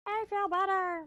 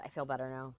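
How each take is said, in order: First: High squeaky cartoon voice; silly high voice. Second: Said in the usual way. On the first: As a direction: squeak it out goofily. Repeat in silly voice.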